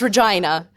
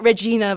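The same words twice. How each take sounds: First: The name is said in a posh-sounding way. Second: The name is said in a common-sounding way. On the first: This is the refined, proper way to say the name. The speaker calls it right. "so uh, it's Regina, darling" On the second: This is how ordinary people say the name. The speaker calls it wrong. "Some people pronounce it Regina, but I think that's a bit common"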